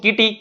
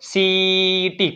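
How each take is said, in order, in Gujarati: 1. આ શબ્દ k અવાજથી શરૂ થાય છે. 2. આ શબ્દ s અવાજથી શરૂ થાય છે. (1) "કોઈએ વાંચ્યું કીટી" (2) "સી ના બે ઉચ્ચાર થાય ક અને સ"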